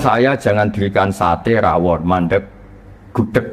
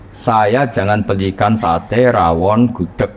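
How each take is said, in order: First: There is a clear pause before the last item. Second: The list is read straight through without pausing. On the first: Only the last food should be bought. "Karena di sakta" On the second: All the foods are forbidden. "Dibaca langsung itu pasti semuanya mamnuat"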